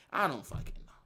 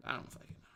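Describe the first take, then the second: First: Said in the usual way. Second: Repeated in a whisper, far softer. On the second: Real, not acted. Streamer to chat, whispering the line again. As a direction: breathe it out, voiceless and low.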